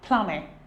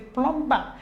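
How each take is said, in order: First: No b sound is heard after the m. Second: A b sound is heard after the m. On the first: The speaker calls it right. "So the B here is silent" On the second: The speaker calls it wrong. "You know how we pronounce it. We say plumber"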